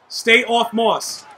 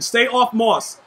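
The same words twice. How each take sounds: First: Slow repeat. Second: Said in the usual way. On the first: Shown as a demonstration. Gamer repeating the order to teammate, slow and firm. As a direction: stay off Moss, slowed right down, every word spaced. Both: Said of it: "I repeat".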